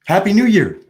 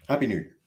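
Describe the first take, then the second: First: Cheery call. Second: Said in the usual way. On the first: Real, not acted. Calling out New Year greeting.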